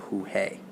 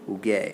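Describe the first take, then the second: First: The g is soft, like an h. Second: The g is hard, like in go. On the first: The speaker calls it wrong. "We don't want to say jugué. That's going to change the pronunciation" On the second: The speaker calls it right. "So we're going to stick a little U in there"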